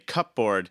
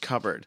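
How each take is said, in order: First: It is sounded out as cup plus board. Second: It is said with the usual reduced pronunciation. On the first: The speaker calls it wrong. "I pronounced every word in my head" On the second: The speaker calls it right. "I knew that it was cupboard"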